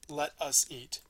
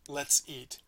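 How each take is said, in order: First: 'Let us' is said as two separate words. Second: 'Let us' is squeezed into one short syllable.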